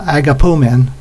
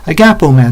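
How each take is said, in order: First: The stress falls on the last syllable. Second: The stress falls before the last syllable. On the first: The speaker calls it wrong. "Sounds like we're pulling men around on a sled" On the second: The speaker calls it right. "It's agap, agapomen"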